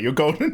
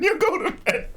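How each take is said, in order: First: Said in the usual way. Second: Squeaked high through a laugh; laughing repeat. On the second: Retold or imitated. Streamer repeats to his friend, high and laughing. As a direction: giggle it out, much higher. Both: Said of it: "I was just like".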